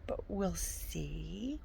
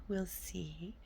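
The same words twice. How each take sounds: First: Drawn-out, slow and soft; slow trailing off. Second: Breathy unvoiced hush; whisper. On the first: A slow shrug over her reading goal. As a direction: let it trail away unsure. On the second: Whispering the same doubt to herself. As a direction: say it under your breath. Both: Real, not acted.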